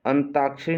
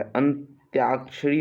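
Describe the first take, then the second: First: "अंताक्षरी" with ता, no y sound; wrong form shown. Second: "अंत्याक्षरी" with a clear त्या; correct form shown. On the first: Teacher showing the mistake to avoid, अंताक्षरी without the y. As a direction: say "अंताक्षरी" quickly with a bare ता. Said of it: "नहीं होता है". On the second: Teacher correcting students' word, अंत्याक्षरी with a clear त्या. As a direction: put a y glide after t in "अंत्याक्षरी". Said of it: "होता है". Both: Shown as a demonstration.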